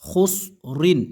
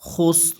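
First: The word ends with the syllable rin. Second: The word ends on a bare r sound. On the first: The reading continues without stopping. "রদিজের রিন হোস রিন" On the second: The reading stops at the end of the verse. "এই জায়গায় যদি আমরা অক্ফ করি কি হবে"

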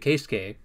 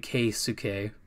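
First: The middle u vowel is skipped, nearly silent. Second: The middle u vowel is fully pronounced. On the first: The speaker calls it right. "You would say Keisuke" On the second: The speaker calls it wrong. "you don't want it to say Keisuke"

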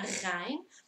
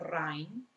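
First: It starts with a throaty G-like sound. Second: It starts with an R sound. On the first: The speaker calls it right. "è una Rhein. Quindi sua origine è una G" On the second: The speaker calls it wrong. "non c'entra niente con la R perché non è una Rhein"

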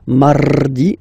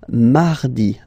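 First: The R is made with a moving tongue. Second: The R is made very softly and lightly. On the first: The speaker calls it wrong. "You don't move your tongue, so it doesn't sound like mardi, no" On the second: The speaker calls it right. "It's really soft"

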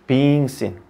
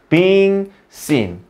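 First: The phrase is said quickly, run together. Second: The phrase is said slowly and carefully. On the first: The speaker calls it wrong. "빨리 읽으면 being seen이 돼버리니까" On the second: The speaker calls it right. "그렇게 빨리 읽지 말고 being seen"

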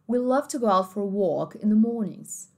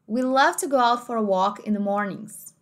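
First: It is spoken in a British English accent. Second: It is spoken in an American English accent. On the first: "Britânico"

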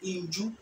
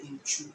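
First: The middle consonant sounds like 'j'. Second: The middle consonant sounds like 'ch'. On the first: This is the local Edukrom form. "we say inju" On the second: This is the form most Akan communities use. "we don't say inchu"

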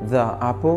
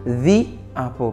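First: 'The' is said with a short 'thuh' vowel. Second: 'The' is said with a long 'thee' vowel. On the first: The speaker calls it wrong. "Au lieu que vous dites the apple" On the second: The speaker calls it right. "vous dites the apple parce que apple commence par une voyelle"

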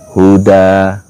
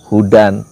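First: The word ends in a vowel, no n. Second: The word ends with an n sound. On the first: "dibacanya huda" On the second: "atau hudan"

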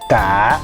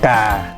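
First: The tone dips down then comes up. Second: The tone goes down to low pitch. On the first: "giống cái dấu hỏi" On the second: "tiếng sẽ thấp xuống ngang nhau với là tiếng dấu huyền"

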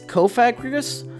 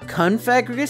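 First: The first syllable has no n sound. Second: The first syllable has an n sound. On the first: The speaker calls it right. "it's Kofagrigus" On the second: The speaker calls it wrong. "It's not Confagrigus"

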